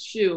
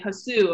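First: The name is said with one syllable. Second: The name is said with two syllables. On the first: The speaker calls it right. "no, it's Shu" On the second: The speaker calls it wrong. "they'll say Hasu"

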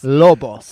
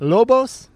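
First: The name is said with a Spanish flair. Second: The name is said in a plain English way. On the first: "You put a little spice into it" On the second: "Am I saying that right?"

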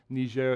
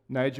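First: The name is said with a French pronunciation. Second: The name is said with an English pronunciation. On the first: "Niger is the French" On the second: "Niger would be the English pronunciation"

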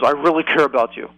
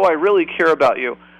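First: It sounds cold and unconvincing. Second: It sounds warm and sincere. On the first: The caring is not believable. "but their tone is, ... You wouldn't believe it" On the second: The caring is meant. "if someone says"

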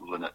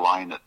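First: The first syllable sounds like 'lin'. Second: The first syllable sounds like 'lie'. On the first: The speaker calls it wrong. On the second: The speaker calls it right. "It's [name]"

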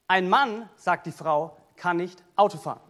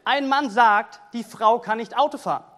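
First: Pauses set off 'sagt die Frau'. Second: The only pause comes after 'sagt'.

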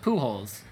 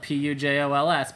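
First: The name is said the common American way. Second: The name is read the way it is spelled. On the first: "Americans pronounce it" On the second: "especially the way it's spelled"

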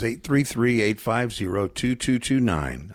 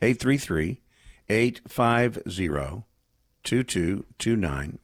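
First: The number is said at normal speed. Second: The number is said slowly.

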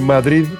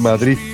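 First: The word ends in a soft d sound. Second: The word ends in a th sound. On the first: "en lugar de decir Madrid" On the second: "Terminado como en Z"

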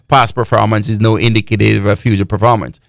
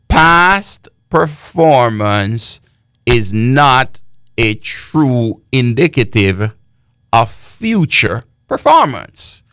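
First: It is said fast. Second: It is said slowly.

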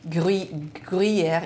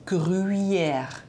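First: No u vowel is heard after the r. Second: A u vowel is heard after the r. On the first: The speaker calls it wrong. "So it's not Gruyère" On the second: The speaker calls it right. "It's Gruyère. Because there's a U in front of the Y"

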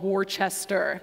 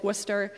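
First: Every written syllable of the name is pronounced. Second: The name is shortened, with syllables dropped. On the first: This is how a newcomer reading the sign would say it. The speaker calls it wrong. "this town should be called Worcester" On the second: This is how locals actually say it. The speaker calls it right. "But no, it's Worcester"

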